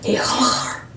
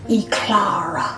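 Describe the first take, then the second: First: It is said in a French accent. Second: It is said in a plain accent.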